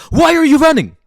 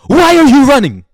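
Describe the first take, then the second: First: Loud demand. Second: The same question again, shouted much louder; shouted repeat. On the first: Confronting people who run. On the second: Demanding why people run from their sadness, shouting. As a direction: yell the question at them. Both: Real, not acted.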